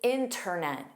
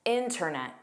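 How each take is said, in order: First: The T after the N is pronounced. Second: The T after the N is pronounced.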